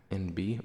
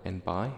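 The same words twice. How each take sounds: First: N B said "en-BEE"; second letter as "bee". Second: N bi said "en-BYE"; second part as "bye". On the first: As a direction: say N B as two letter names, "en bee". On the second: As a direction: say N bi with "bi" rhyming with "eye". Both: Shown as a demonstration. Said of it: "N B or N bi".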